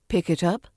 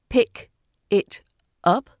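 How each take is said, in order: First: The words are linked with no gaps. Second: The words are separated with small gaps. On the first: The speaker calls it right. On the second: The speaker calls it wrong.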